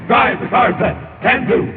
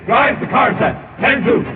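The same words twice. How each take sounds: The two takes are said the same way.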